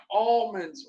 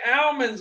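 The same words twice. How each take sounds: First: Almonds with an AWL sound and silent l, AWL-monz; California pronunciation. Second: Almonds with a flat A as in cat, AM-onz; local pronunciation. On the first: Telling viewers how California says it, Almonds as AWL-monz. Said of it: "That's what they say out in California". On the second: Contrasting his own way with California, almonds as AM-onz. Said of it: "we say almonds over here". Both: Shown as a demonstration.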